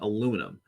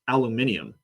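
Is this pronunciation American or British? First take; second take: American; British. First: It is said with an American pronunciation. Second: It is said with a British pronunciation. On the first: "rather than aluminum. For us as Americans" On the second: "they pronounce things like aluminium"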